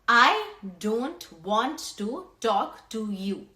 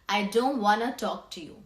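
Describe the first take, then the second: First: The words want to are said in full. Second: The words want to are reduced to wanna. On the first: "Instead of saying that whole sentence" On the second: "native speakers prefer saying"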